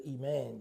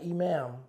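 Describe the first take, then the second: First: "iman" said softly as ee-MAHN, ending on n; quiet correcting say of "iman"; correct pronunciation. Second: "imam" said as ee-MAHM, ending on m, as the word to avoid; "imam" given as the wrong word; contrast word. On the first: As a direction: land "iman" on a clear n. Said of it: "not the leader, iman". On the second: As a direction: set "imam" apart, closing on m. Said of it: "not imam". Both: Shown as a demonstration.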